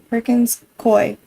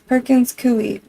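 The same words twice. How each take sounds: First: The second word does not rhyme with gooey. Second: The second word rhymes with gooey. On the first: The speaker calls it wrong. "Everybody says it wrong" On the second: The speaker calls it right. "like gooey"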